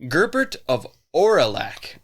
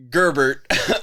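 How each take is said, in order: First: Gerbert of Aurillac said as OR-uh-lack; careful corrected Gerbert of Aurillac; corrected pronunciation. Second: Gerbert of said as Gerbert of Auralic, reversed; wrong pronunciation. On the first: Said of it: "I flipped shit and reversed it". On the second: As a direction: stumble into Gerbert of with a rising of. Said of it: "Nope, I, I flipped shit and reversed it". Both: Shown as a demonstration.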